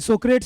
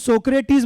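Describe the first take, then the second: First: The name ends with a clipped 'ts' sound. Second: The name ends with a full 'tis' syllable. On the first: The speaker calls it wrong. "सोक्रेट्स नहीं बोलना है" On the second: The speaker calls it right. "इसको सोक्रेटिस बोलना है"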